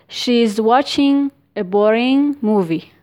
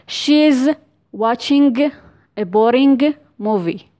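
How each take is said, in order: First: The -ing endings finish in a nasal, no g. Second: The -ing endings finish with a hard g sound. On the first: The speaker calls it right. "The correct form" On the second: The speaker calls it wrong. "the wrong version"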